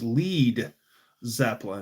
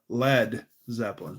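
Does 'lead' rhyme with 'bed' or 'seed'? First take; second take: seed; bed. First: The word lead rhymes with seed. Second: The word lead rhymes with bed. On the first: The speaker calls it wrong. "they were afraid people were going to say it was lead Zeppelin" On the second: The speaker calls it right. "instead of lead Zeppelin"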